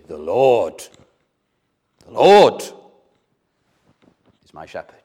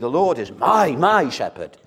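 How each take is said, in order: First: The stress falls on the word Lord. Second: The stress falls on the word my. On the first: The focus is on God. The speaker calls it right. "You should say" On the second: The focus is on oneself. The speaker calls it wrong. "you're putting the emphasis in the wrong place. You're trying to say"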